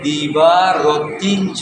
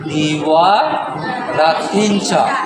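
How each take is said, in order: First: The first word has a b sound in the middle. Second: The first word has a w sound in the middle. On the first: "এখানে বলছে দিবা রতিঞ্চ" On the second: "ব থেকে ব থেকে ওয়া"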